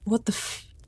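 It is said as a frightened whimper.

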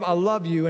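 The words sound warm and sincere. The speaker truly means it. The speaker calls it right. "if I don't say it like, babe, I love you, and I'm making eye contact"

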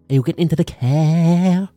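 It is said in a Limerick accent.

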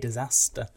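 The word is said in a northern accent. The speaker calls it right. "I'm from the north. I should say disaster"

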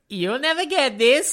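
It is said in a Borat impression voice.

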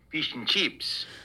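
It is said in an Australian accent.

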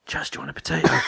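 It is said in a whisper. "she whispered to him"

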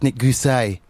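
The name is said with a French pronunciation.

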